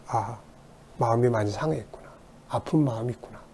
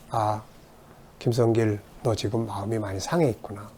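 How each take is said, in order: First: Soft, soothing understanding; gentle empathy. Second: Softly soothing yourself; gentle self-comfort. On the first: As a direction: comfort a hurt child quietly. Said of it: "이해하는 거죠". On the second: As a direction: speak to your own hurt heart, gently. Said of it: "그럴 때 이해를 하는 거죠". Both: Shown as a demonstration.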